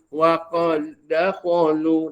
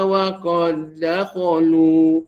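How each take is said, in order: First: The doubled d is touched only lightly. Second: The doubled d is touched only lightly.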